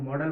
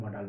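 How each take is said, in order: First: "मॉडल" with a short, reduced second vowel, MOD-uhl. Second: "मॉडल" with an open, long aa, MO-daal; long second vowel. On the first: Teacher showing learners how some people say it, "मॉडल" with a short uh. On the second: Teacher showing learners the other way people say it, "मॉडल" with a long aa. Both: Shown as a demonstration. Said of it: "कुछ लोग मॉडल बोलते हैं".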